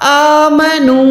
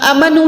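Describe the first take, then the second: First: The first vowel is held about a second. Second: The first vowel is short. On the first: The speaker calls it right. "अलिफ को प्रॉपर एक सेकंड खींच के पढ़ना है" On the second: The speaker calls it wrong. "अमनू नहीं पढ़ना"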